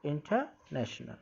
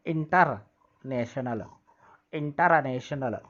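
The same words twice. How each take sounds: First: इंटरनेशनल said quickly and clipped, no extra vowels between syllables; right pronunciation demo. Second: इंटरनेशनल slowly with every syllable spelled out, "इंटरनेशनल" as in-ta-ra-na-tio-na-la; wrong pronunciation demo. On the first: Teacher showing pupils the correct इंटरनेशनल. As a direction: say इंटरनेशनल short and smooth. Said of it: "ये नहीं". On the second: Teacher showing pupils how not to say इंटरनेशनल. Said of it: "ऐसा नहीं". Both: Shown as a demonstration.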